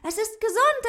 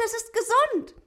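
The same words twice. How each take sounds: First: Much higher, loud cheer rising on gesund. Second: Much higher, loud cheer falling on gesund. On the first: Ute cheers that the rabbit is healthy, rising on "gesund". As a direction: shout for joy, lifting "gesund". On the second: Ute cheers again that the rabbit is healthy, falling on "gesund". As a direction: shout for joy, landing "gesund" with a fall. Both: A narrator's reading. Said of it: "Ute jubelte".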